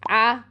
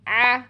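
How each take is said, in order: First: The throat sound comes from very low down. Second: The throat sound is squeezed almost fully shut. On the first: "बहुत नीचे से जाके करते हैं" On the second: "बिल्कुल बंद ही कर देते हैं"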